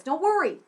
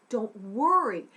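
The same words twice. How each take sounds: First: Louder and higher, firm reassurance; emphatic reassurance. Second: Said in the usual way. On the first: Real, not acted. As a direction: call it out to reassure the listeners.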